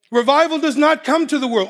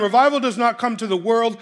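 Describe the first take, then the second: First: "not" leaned on, then corrected; "Revival does not come to the world" with "not" hit hard; stress on not. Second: Said in the usual way. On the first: Shown as a demonstration. Preacher baits the crowd, stressing "not" firmly. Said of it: "Oh, yes, it does".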